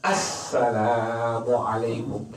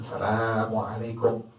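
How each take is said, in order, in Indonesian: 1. Salam itu diucapkan dengan cermat dan sesuai kaidah baku. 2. Salam itu diucapkan dengan cara yang sembarangan dan keliru. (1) "bukan Assalamualaikum" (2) "salamnya nggak benar"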